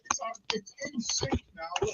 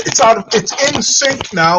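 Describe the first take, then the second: First: Faint delayed echo through a speaker; distant repeat from another device; echo from second device. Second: Said in the usual way. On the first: Real, not acted. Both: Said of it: "There's still an echo".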